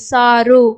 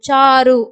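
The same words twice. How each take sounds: First: The name begins with an s sound. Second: The name begins with a ch sound. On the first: The name is spelled with S. "சாரு அப்படின்னா எஸ் A ஆர் யூ சாரு" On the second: The name is spelled with CH. "சாரு அப்படின்னா சிஹெச் A ஆர் யூ சாரு"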